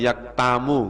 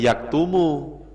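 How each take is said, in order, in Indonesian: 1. Vokal setelah t adalah a. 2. Vokal setelah t adalah u. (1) "nggak boleh" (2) "Ya tetap bacanya yaktumu"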